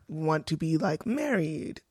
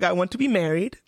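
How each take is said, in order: First: It is said hesitantly, with fillers. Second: It is said firmly and affirmatively.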